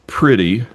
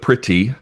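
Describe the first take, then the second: First: The word is slurred with lazy mouth movement. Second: The word is crisply enunciated with every sound. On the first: The speaker calls it wrong. "most of us would say" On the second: The speaker calls it right. "instead of"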